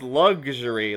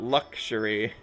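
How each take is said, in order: First: The middle consonant is a voiced g sound. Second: The middle consonant is a voiceless k sound. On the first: "usually I say it as luxury, like a lug" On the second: "not luxury"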